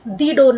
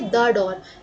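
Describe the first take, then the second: First: 'The' is said with a long ee vowel. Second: 'The' is said with a short uh vowel. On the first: The speaker calls it wrong. "दी door नहीं बोलेंगे" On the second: The speaker calls it right. "तो हम क्या बोलेंगे, द door"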